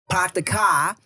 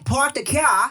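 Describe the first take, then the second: First: It is said in a Boston accent. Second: It is said in an Australian accent. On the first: "mix your stereotypical British accent with a Boston accent" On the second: "Now you have Australian"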